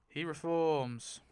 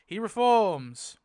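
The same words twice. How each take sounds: First: Said in the usual way. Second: Loud, punchy reveal; triumphant declaration; excited announcement. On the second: Real, not acted. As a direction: call it out like big news.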